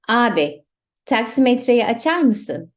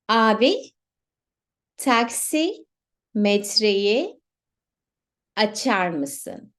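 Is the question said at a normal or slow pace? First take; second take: normal; slow. First: The question is said at normal speed. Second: The question is said slowly.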